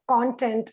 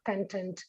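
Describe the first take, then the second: First: The stress is on the first syllable. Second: The stress is on the second syllable. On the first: The speaker calls it right. "When using in the noun form, it takes the pronunciation of content" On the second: The speaker calls it wrong. "and not content"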